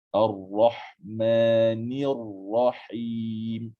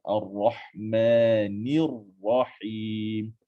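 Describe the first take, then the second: No difference in how they are said.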